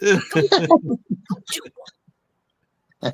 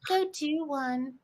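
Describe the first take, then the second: First: It is said like a sassy American. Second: It is said plainly, without the sassy American voice.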